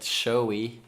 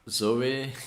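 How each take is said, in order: First: The name begins with an sh sound. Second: The name begins with a z sound. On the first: This is how a Dutch interviewer said the name. "he said Shoei" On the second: This is the usual way of saying the name. "instead of Zoe"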